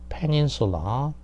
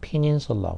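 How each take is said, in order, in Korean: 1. 한국식 발음으로 된 거예요. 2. 영어식 발음으로 된 거예요. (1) "우리는 뭐 peninsula라고 하는데" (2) "영어식으로 하면 이제 peninsula가 되겠죠"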